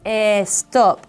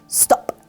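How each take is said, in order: First: An extra vowel sound comes before the word. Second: The word starts directly with the s sound. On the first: The speaker calls it wrong. "we don't say" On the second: The speaker calls it right. "It's stop"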